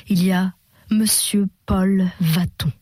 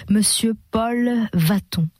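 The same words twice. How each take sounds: First: Lofty noble style. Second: Grand noble style. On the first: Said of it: "Mais V V était remonté au style noble". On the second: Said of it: "remonté au style noble". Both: A narrator's reading.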